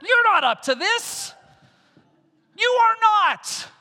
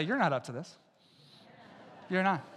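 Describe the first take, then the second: First: High, loud, slow declaration; preaching shout. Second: Soft, low, casual you're not up to this; quiet aside to neighbor. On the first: Acted. Preacher telling the congregation they can't, thundering. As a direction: drag it out and thunder it. Turn to your neighbor and say. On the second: Shown as a demonstration. Congregation member telling a neighbor, softly. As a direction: say it softly to the person beside you. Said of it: "Turn to your neighbor and say".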